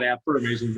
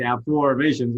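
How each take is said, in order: First: "affirmations" with the usual "affer" sound, er-mations; wrong pronunciation. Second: "affirmations" with a clear O sound, aff-OR-mations. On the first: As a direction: say "affirmations" the common way, ur in the middle. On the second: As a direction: stress the O in "affirmations". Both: Shown as a demonstration. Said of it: "It's affirmations with an O".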